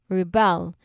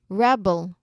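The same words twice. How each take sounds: First: The stress is on the second syllable. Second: The stress is on the first syllable. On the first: To resist or fight against control. "the second version where the second syllable stressed" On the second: A person who goes against rules or authority. "the first version with the first syllable stressed"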